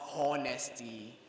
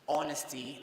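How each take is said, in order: First: The word begins with an audible H sound. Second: The word begins with a vowel, no H sound. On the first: The speaker calls it wrong. "not honesty" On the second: The speaker calls it right. "The H in that word is silent. You begin pronouncing from the O"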